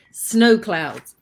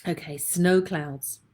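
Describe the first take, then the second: First: Frog in throat. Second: Said in the usual way. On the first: Real, not acted. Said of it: "I've got snowflakes in my throat". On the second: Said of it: "Oh, goodness me".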